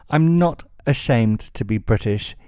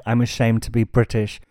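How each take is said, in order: First: "not" leaned on, the rest level; stress on not. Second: Said in the usual way. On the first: Real, not acted. Blogger rejecting the quote, stress on "not". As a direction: hit the word "not" firmly.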